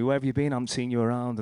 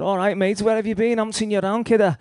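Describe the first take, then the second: First: Said in the usual way. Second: Put-on high and loud, hearty old mate's hello; loud, high-pitched cheery greeting from a rough old friend. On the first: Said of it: "And he actually said". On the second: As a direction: call it out high and loud like spotting an old mate in the street. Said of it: "Like that, you know".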